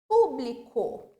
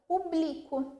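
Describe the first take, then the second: First: The stress is on the first syllable. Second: The stress is on the second syllable. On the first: "o pu é a sílaba mais forte" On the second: "tirasse esse acento agudo... já fica totalmente outra palavra"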